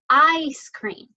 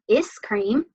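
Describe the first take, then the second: First: The first vowel is long, saying its name. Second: The first vowel is short, like in 'is'. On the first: The speaker calls it right. "uses the long I sound" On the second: The speaker calls it wrong. "we don't call it is cream"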